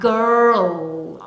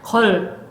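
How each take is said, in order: First: The word is said with a clear R sound. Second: The word is said without any R sound. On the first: The speaker calls it right. "알 소리 내주셔야 됩니다" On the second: The speaker calls it wrong. "콩글리시 발음하면 걸 하면 무슨 소리가 아울 소리가 빠졌죠"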